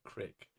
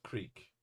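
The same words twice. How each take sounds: First: Crick said with a short i, as in brick. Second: Said in the usual way. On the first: Shown as a demonstration. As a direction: say crick, not creek, the local way. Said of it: "instead of creek". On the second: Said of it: "we use the word yins and crick".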